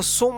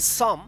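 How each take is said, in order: First: "so" with an o vowel, the wrong reading of some; "so" as a learner's mistake, long o. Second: "some" said as "sum", with a short open vowel; "some" rhyming with "sum"; correct reading of some. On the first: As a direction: say "so" as the misreading to avoid. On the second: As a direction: model "some" with an uh sound, closing on m. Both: Shown as a demonstration. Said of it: "इसको so मत पढ़िएगा".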